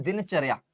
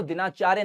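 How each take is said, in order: First: दिनचर्या as din-char-yaa, short vowels until the end; correct reading. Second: दिनाचार्य with long "aa" after din and in chaar; misreading. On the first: Teacher correcting the reading for students, दिनचर्या said as din-char-yaa. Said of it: "पढ़ते हैं दिनचर्या". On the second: Teacher showing students how not to read it, misreading दिनाचार्य as din-aa-chaar-ya. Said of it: "इसको दिनाचार्य नहीं पढ़ते". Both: Shown as a demonstration.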